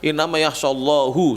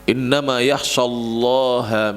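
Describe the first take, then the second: First: The last word ends with a 'u' vowel. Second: The last word ends with an 'a' vowel. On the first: The speaker calls it wrong. "banyak yang baca innama yakhshallahu, salah" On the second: The speaker calls it right. "Ha, harus ha. Jadi harus fathah"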